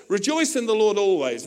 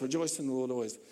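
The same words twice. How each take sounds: First: Paul dictating. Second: Scribe repeating. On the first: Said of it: "he says". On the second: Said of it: "the guy goes". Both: Retold or imitated.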